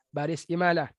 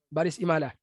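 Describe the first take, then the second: The two takes are said the same way.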